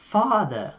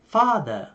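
No difference in how they are said.

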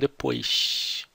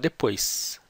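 First: It is said with a Rio de Janeiro accent. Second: It is said with a São Paulo accent. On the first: "No Rio eles falam depois" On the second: "aqui em São Paulo a gente fala depois"

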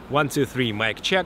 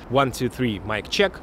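First: Low rumble and hum are cut out. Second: Low rumble and hum are left in. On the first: "Low cut filter at 75 on Comica and the regular mode with the low cut filter" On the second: "No low cut filter"

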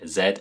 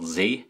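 First: The letter is said the British way. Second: The letter is said a non-British way. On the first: The speaker calls it right. "In British English, we say Z" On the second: The speaker calls it wrong. "and not Z"

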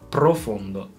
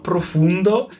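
First: The word is said with an Italian accent. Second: The word is said with an English-style accent. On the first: The speaker calls it right. "This is the pronunciation" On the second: The speaker calls it wrong. "it's not profundo"

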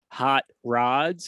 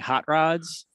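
First: The two words are said separately, each stressed. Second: The two words run together as one compound. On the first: "when I say them separately" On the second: "instead of saying"

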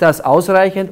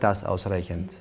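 First: The words are spoken loudly. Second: The words are spoken softly.

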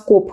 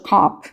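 First: The vowel is a rounded 'o' sound. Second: The vowel is an open 'a' sound. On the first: This is how the locals say it. "нас коп кажуть" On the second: This is the pronunciation learned in class. "Я знаю, що кап"

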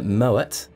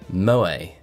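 First: The final T is pronounced. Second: The final T is silent. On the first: The speaker calls it right. "so you do pronounce the T" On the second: The speaker calls it wrong. "the world calls Moët and Chandon Moët. And of course it's not"

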